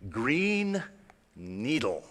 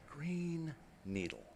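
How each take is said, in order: First: Robotic voice. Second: Soft, slow whispered robot. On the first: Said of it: "the same voice, you're going to hear the voice say". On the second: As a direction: whisper it like the toy. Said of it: "the same voice". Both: Retold or imitated.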